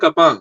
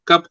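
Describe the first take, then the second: First: The word is stretched with a final added vowel. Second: The word is said plainly, ending on p.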